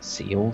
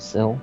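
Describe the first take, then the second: First: The vowel is long, like 'seal'. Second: The vowel is short, like 'sill'. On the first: The speaker calls it wrong. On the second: The speaker calls it right. "It's windowsill"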